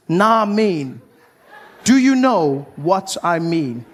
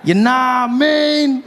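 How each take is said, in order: First: Slurred clipped nah mean, falling; lazy nah mean. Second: "You nah mean" stretched slowly, falling at the end; drawn-out nah mean. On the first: Comic showing off a slang word, slurred. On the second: Comic savouring the slang, drawn out. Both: Shown as a demonstration. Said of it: "neither question nor statement".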